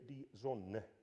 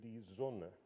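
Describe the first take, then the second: First: The stress falls on the second syllable of Sonne. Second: The stress falls on the first syllable of Sonne. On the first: The speaker calls it wrong. "no German would say" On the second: The speaker calls it right. "They would say"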